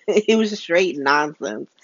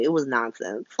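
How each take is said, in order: First: Slow, each word leaned on; slower, firmer restatement; emphatic dismissal. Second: Said in the usual way. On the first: Real, not acted. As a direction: stretch out straight nonsense for weight.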